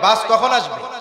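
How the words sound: The question is asked in an irritated, scolding tone. The asker is complaining that the bus is late. "বিরক্ত হয়ে গেছেন না? ... উল্টা শাসাইতেছেন"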